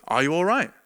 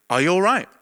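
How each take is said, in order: First: A light imitation of a soft, calm man's voice; gently ask, as a kind stranger would. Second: Lightly voiced man calling out gently; a gentle man's voice asking if he's okay; kind voice waking him. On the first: A calm voice rousing him from sleep, softly. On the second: A voice in the bedroom asking the sleeper, lightly voiced. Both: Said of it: "nice, soft, calm voice".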